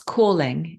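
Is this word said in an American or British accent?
British. It is said with a British accent. "calling in British"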